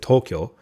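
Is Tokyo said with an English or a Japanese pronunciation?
Japanese. The word is said with a Japanese pronunciation. "instead of Tokyo"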